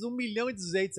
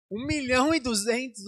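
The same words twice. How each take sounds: First: Said in the usual way. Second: Louder and higher, stunned by the price; shocked exclaim. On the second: Retold or imitated. Pastor repeating the price he was told, stunned. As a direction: blurt the price out in disbelief.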